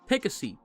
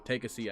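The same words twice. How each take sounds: First: The line is said in a nice, gentle tone. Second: The line is said in a harsh, mean tone. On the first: The speaker sounds friendly. The speaker calls it right. "That sounds nice" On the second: The speaker sounds unfriendly. The speaker calls it wrong. "I shouldn't say it in like like I don't feel like he's saying it in like a like a mean way"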